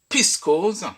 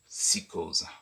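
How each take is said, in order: First: The initial P is pronounced. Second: The initial P is left silent. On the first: The speaker calls it wrong. "Au lieu de dire" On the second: The speaker calls it right. "pourquoi ne pas dire simplement"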